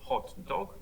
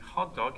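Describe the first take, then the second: First: Both words carry stress. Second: Only the second word carries stress. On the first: "you have two stressed words" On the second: "you have one stress on dog"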